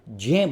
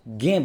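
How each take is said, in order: First: The letter is said as 'j' joined to 'y'. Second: The letter is not said as 'j' plus 'y'. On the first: The speaker calls it right. "इसको ज्य बोला जाता है। ये अर्थात जे और ये मिलकर के ज्य बोला जाता है" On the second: The speaker calls it wrong. "बहुत से लोग हैं जिनको ये उच्चारण करते समय इसको हम ज्ञ बोलते हैं, जबकि ये ज्ञ नहीं है"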